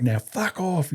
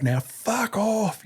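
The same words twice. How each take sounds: First: Higher, held-back military send-off; raised-pitch bark at ordinary volume; mock dismissal yell. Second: High, long drawn-out send-off yell; slow, hammed-up drill bellow at held-back volume; showy mock dismissal. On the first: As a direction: imitate a corporal dismissing a recruit. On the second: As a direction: stretch it out like a contest-winning dismissal. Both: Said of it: "see who could do the best fuck off".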